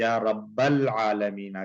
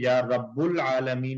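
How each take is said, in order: First: The vowel after Rabb is a. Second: The vowel after Rabb is u. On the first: The speaker calls it right. "बल्कि या रब्बल आलमीना कहेंगे" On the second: The speaker calls it wrong. "नहीं कहेंगे"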